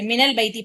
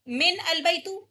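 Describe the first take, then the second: First: Min and al are joined as minal. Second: Min and al are said as separate words. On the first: The speaker calls it right. "मिनल बैती पढ़ेंगे इसको" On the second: The speaker calls it wrong. "ऐसे नहीं पढ़ सकते"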